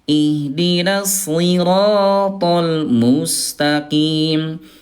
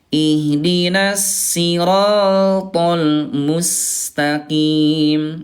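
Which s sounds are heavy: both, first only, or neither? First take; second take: both; neither. First: Both s sounds are heavy, with the tongue raised. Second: Both s sounds are light, with the tongue lowered. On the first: "Yang kedua ayah bunda dua-duanya sod ya" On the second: "yang pertama tadi dua-duanya sin"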